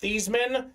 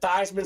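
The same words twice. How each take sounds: First: The name does not rhyme with Heisman. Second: The name rhymes with Heisman. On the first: This is the family's original pronunciation. "His name was pronounced Theismann" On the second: This pronunciation was adopted to promote a Heisman campaign. "you should pronounce it Theismann so we can promote you. Theismann for the Heisman"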